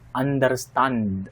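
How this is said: It is said with a Filipino English accent. "That is so Filipino way of pronouncing the word understand"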